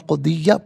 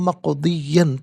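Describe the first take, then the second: First: The word ends with a long a vowel. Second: The word ends with an n sound. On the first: The reciter stops at this word. "वफ़् की सूरत में मक़दिय्या पढ़ा जाएगा" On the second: The reciter continues without stopping. "हत्मम मक़दिय्यन पढ़ेंगे"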